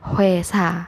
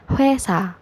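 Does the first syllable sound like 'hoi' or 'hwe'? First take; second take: hwe; hwe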